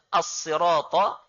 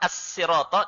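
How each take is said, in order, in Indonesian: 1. Bunyi s itu emfatik, dengan sad yang berat. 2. Bunyi s itu biasa, dengan sin yang ringan. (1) "dengan menggunakan mursad" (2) "dengan sin"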